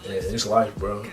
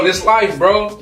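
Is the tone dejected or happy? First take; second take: dejected; happy. First: It is said in a weary, dejected tone. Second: It is said in a happy, upbeat tone. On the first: Things are not going as planned. "I'm really struggling" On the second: Everything is going well. "I'm having a good time, I'm enjoying where I'm at"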